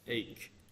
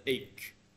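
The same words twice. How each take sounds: First: The word starts with a vowel sound. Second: The word starts with a vowel sound.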